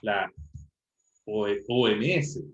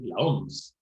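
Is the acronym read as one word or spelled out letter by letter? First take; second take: spelled out; one word. First: Each letter name is said separately. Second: It is read as a single word. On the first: The speaker calls it right. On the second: The speaker calls it wrong.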